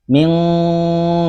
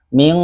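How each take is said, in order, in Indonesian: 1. Dengungnya terdengar lewat hidung. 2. Hidungnya dijepit dan dengungnya berhenti. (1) "bunyi ikhfa itu ming itu ada" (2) "tutup hidung, ming nah itu pasti berhenti"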